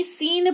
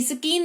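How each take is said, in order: First: सीन with the c silent; correct pronunciation. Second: स्कीन with the c said as k; wrong pronunciation. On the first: Teacher showing the right way: सीन, c silent. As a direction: say सीन, no k after the s. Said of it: "सीन पढ़ते हैं". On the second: Teacher showing the wrong way: स्कीन with a k sound. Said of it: "स्कीन नहीं". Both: Shown as a demonstration.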